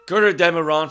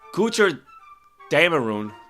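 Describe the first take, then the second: First: The second word starts with a short 'deh' sound. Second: The second word starts with a 'day' sound. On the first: The speaker calls it wrong. "I probably am pronouncing that wrong" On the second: The speaker calls it right. "like the E A sound like like in Baker"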